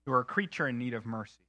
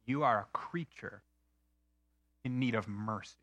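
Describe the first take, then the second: First: Said in the usual way. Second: Quoted verdict. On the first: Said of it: "repeated line". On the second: Retold or imitated. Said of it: "he is saying".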